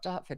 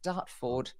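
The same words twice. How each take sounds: First: It is said in a British accent. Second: It is said in an Australian accent.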